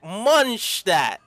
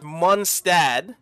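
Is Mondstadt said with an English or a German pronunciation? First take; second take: German; English. First: It is said with a German pronunciation. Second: It is said with an English-style pronunciation. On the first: The speaker calls it right. "I have to say it as a German would say it" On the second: The speaker calls it wrong. "I was pronouncing it with Mondstadt in the game, but these guys were saying that it's wrong"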